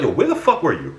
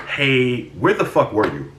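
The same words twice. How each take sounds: First: Sharp, aggressive confrontation; angry demand. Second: Said in the usual way. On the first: Retold or imitated. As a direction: snap the question at him. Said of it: "Just like that. No".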